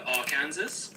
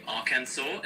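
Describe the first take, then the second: First: "Arkansas" ending in Kansas, with the s heard; as spelled, like Kansas. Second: Said in the usual way. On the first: Shown as a demonstration. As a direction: pronounce "Arkansas" as ar-KAN-zus. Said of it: "instead of Arkansas". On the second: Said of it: "they say Arkansas".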